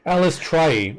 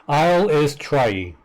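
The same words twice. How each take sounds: First: Alice Trai run together as one name; trying out Alice Trai, higher; pronunciation attempt. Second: Isle is Trai with a long opening eye sound; deliberate, drawn-out Isle is Trai; pronunciation demo. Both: Shown as a demonstration. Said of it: "Elistri pronounced her own name".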